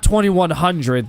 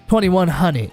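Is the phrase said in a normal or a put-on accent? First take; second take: normal; put-on. First: It is said in the speaker's ordinary accent. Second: It is said in an exaggerated slang accent. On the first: "That's actually the normal way of saying it" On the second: "Don't get used to me talking like that"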